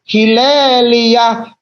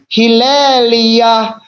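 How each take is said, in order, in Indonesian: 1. Vokal pertamanya bunyi 'i': Hilelia. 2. Vokal pertamanya bunyi 'i': Hilelia.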